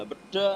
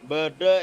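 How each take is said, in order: First: "beda" high and punched; Madurese articulation. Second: "Bede" drawn out and loud; Madurese articulation. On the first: Explaining the word for torn, a high, loud "beda". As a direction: say "beda" short and emphatic, as be-da, pitched up. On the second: Explaining the word for "ada", a slow, emphatic "Bede". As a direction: stretch "Bede" slowly, sounding like "ba-da". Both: Shown as a demonstration. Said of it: "penekanannya, artikulasinya beda".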